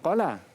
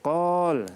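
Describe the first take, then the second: First: The word ends with a short vowel. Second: The word ends on a bare consonant. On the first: The speaker calls it wrong. "bukan qala" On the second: The speaker calls it right. "tapi qal, sebab dia berhenti"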